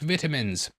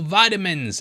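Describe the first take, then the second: First: Vitamins is said with a non-American pronunciation. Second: Vitamins is said with an American pronunciation.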